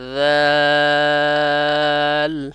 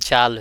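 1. এটা নরম 'th' ধ্বনি দিয়ে শুরু। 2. এটা 'z' ধ্বনি দিয়ে শুরু, দাঁত একসাথে লাগানো। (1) "ওইটা উচ্চারণ হবে জাল, 3 আলিফ পরিমাণ টানতে হবে" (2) "দুই দাঁত লেগে যাচ্ছে, ... তা জাল হয়ে যাচ্ছে।"

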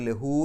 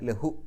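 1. അവസാന സ്വരം നീട്ടി ദീർഘമായി ഉച്ചരിക്കുന്നു. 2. അവസാന സ്വരം ഹ്രസ്വമായി നിലനിർത്തുന്നു. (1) "അതുകൊണ്ട് ലഹു എന്ന് പറയില്ല" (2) "ലഹു എന്നേ പറയുള്ളൂ"

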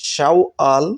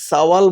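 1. শব্দটি sh ধ্বনি দিয়ে শুরু হয়। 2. শব্দটি s ধ্বনি দিয়ে শুরু হয়। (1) "এটা হলো শুদ্ধ উচ্চারণ" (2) "অনেকেই সাওয়াল বলে থাকেন"

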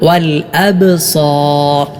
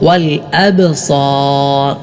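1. b ശബ്ദം പ്രതിധ്വനിയുള്ള കുതിപ്പോടെയാണ് ഉച്ചരിക്കുന്നത്. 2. b ശബ്ദം പ്രതിധ്വനിയുള്ള കുതിപ്പോടെയാണ് ഉച്ചരിക്കുന്നത്.

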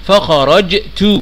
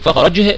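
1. تنتهي الكلمة بصوت تاء واضح. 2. تنتهي الكلمة بصوت هاء.

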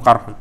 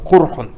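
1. Первая гласная — звук 'a'. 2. Первая гласная — звук 'u'. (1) "другие же часы прочитали бельфатх" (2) "прочитали как курхун бидам"

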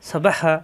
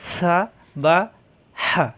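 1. সিলেবলগুলো দ্রুত, বিরতি ছাড়া বলা হয়। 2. সিলেবলগুলো আলাদাভাবে, বিরতি দিয়ে বলা হয়।

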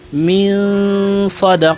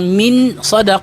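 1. Ang tunog ng n ay bahagyang nakatago at may tunog ng ilong. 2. Ang tunog ng n ay binibigkas nang buo at malinaw. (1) "tinatago mo konti yung nun sakina" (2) "Imbis na bigkasin mo siya ng min sadaq"

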